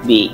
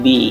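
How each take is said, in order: No difference in how they are said.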